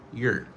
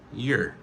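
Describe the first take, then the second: First: The word is said in a weak, reduced form. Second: The word is said in a weak, reduced form.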